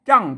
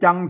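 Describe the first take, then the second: First: The syllable is said with a falling tone. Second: The syllable is said with a level mid tone. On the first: "เสียงโทปกติอะจัง" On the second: "จังเสียงสามัญ"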